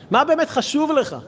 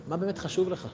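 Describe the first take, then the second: First: High, pressing stress on "באמת חשוב"; emphatic repeated question. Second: Said in the usual way. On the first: Shown as a demonstration. Teacher challenging listeners on what they pray for, emphatic. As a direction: drive home "באמת חשוב", pitched well up.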